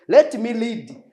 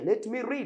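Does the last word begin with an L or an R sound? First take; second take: L; R. First: The last word begins with an L sound. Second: The last word begins with an R sound. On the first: The speaker calls it wrong. "Ugasanga umuntu ari kuvuga ngo I'm going to lead to lead this book" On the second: The speaker calls it right. "It's better to say let me read"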